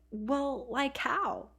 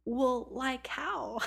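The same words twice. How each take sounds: First: Put-on higher-pitched Valley Girl lilt; West Coast Valley Girl. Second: Slow, exaggerated high Valley Girl drawl; mocking Valley Girl. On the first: Oregon teen challenging the Texas girl, light Valley Girl accent. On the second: Texas girl mimicking the Oregon teen, exaggerated Valley Girl accent. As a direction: parrot it back, stretching the West Coast vowels. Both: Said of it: "Valley Girl surfer thing going on".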